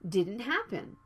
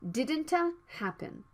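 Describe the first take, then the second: First: The T is stopped and not released before happen. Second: The T is fully released before happen. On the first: The speaker calls it right. "you need to stop the T sound and move to the H sound right away" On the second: The speaker calls it wrong. "Don't say"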